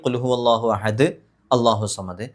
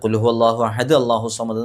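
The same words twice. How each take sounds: First: A breath pause comes after ahad. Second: It runs on after ahad with no breath pause. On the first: The speaker calls it right. "ശ്വാസം വിട്ടിട്ടാണെങ്കിൽ" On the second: The speaker calls it wrong. "ശ്വാസം വിടാതെ ഓതുകയും ചെയ്യരുത്"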